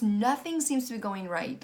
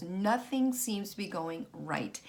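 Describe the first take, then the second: First: Said in the usual way. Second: Nothing stressed, slower and softer; tired echo of her own words, slower and softer; slow weary repeat. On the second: Real, not acted.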